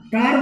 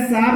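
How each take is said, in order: First: कार said with a k sound, the right way; hard c. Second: सार said with an s sound, the wrong way; wrong soft c. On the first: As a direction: start कार with a firm k. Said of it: "कार बोलते हैं". (कार को क की ध्वनि से, सही उच्चारण) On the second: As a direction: start सार with s, as the mistake to avoid. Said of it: "सार नहीं बोलते हैं". (सार को स की ध्वनि से, गलत उच्चारण) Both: Shown as a demonstration.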